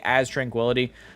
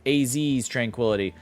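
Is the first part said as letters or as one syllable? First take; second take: one syllable; letters. First: The first part is said as one syllable. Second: The first part is spelled out as letters. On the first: "I say As Tranquility" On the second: "you pronounce the A Z, like A Z's Tranquility"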